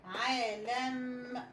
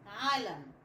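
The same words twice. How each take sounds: First: عالم slowly stretched as aa-lamm; slow, drawn-out عالم; sounded-out word. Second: Said in the usual way. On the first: Shown as a demonstration. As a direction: blend عالم syllable by syllable, holding the m. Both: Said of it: "بقت".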